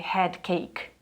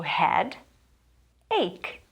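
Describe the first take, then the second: First: An extra k sound comes before 'ache'. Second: No extra k sound comes before 'ache'. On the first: The speaker calls it wrong. "Muita gente lê head cake" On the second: The speaker calls it right. "So head ache"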